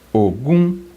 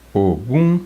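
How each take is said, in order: Both takes have the same delivery.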